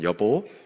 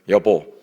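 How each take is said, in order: First: It is said warmly and affectionately. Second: It is said firmly and sternly.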